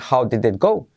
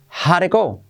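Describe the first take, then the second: First: Every word is pronounced fully and separately. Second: 'How did it' is contracted into one short syllable. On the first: The speaker calls it wrong. "No dicen how did it go" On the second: The speaker calls it right. "dicen how'd it go"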